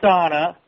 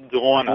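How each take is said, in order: First: Said in the usual way. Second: "Donna" with a rounded "aw" vowel, like "Dwonna"; accented name pronunciation. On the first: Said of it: "It is not just her accent". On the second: Shown as a demonstration. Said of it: "And it's spelled that way".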